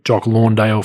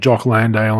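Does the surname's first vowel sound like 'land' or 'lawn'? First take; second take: lawn; land. First: The surname's first vowel sounds like 'lawn'. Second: The surname's first vowel sounds like 'land'. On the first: This is a nickname others picked up. The speaker calls it wrong. "for some reason, pros called him Jock Lawndale" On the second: This is the name as he says it. The speaker calls it right. "His name's Jock Landale"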